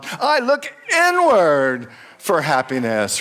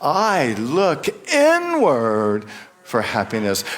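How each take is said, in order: First: It is said with lively, forceful energy. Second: It is said plainly, without extra energy.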